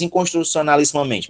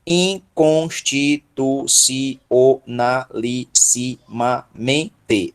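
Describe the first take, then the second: First: Said in the usual way. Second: "Inconstitucionalissimamente" very slow, every syllable separate. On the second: Shown as a demonstration. Teacher counts the syllables of a long word, syllable by syllable. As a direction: break "Inconstitucionalissimamente" into twelve evenly spaced syllables. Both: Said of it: "Doze sílabas".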